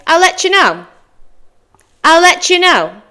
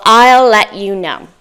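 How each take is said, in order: First: "I'll let you know" as higher "ull letchoo know"; native linked form. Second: "I'll let you know" with "let" and "you" kept apart; careful contracted form. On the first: Teacher shows how natives say it, linked form. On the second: Teacher offers the contraction, careful form. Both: Shown as a demonstration. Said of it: "A native person might say".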